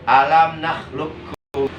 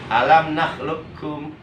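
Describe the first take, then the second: Both takes have the same delivery.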